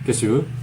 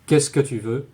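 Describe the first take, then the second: First: The word que before tu is dropped. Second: The word que before tu is pronounced. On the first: "many French speakers will say" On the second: "instead of saying"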